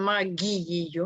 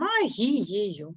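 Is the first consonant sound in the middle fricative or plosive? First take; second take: plosive; fricative. First: The middle consonant is a hard plosive g. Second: The middle consonant is a soft fricative h. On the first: The speaker calls it wrong. "ми ж не кажемо магією" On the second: The speaker calls it right. "ми кажемо магією"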